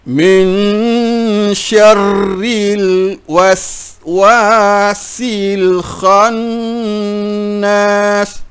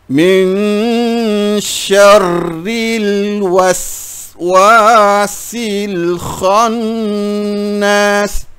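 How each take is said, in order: No difference in how they are said.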